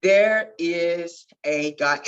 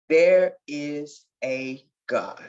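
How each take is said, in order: First: Declaring it now with conviction, slow; slow proclamation. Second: Slow and hushed in wonder; retelling her first thought, slow; slow awed quote. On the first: Real, not acted. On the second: Retold or imitated. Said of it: "all I can remember is saying".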